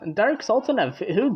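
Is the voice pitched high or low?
low. The voice is pitched low.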